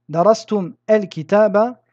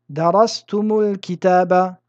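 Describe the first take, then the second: First: Two consonants meet with no vowel between them. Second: A short vowel joins the two words smoothly.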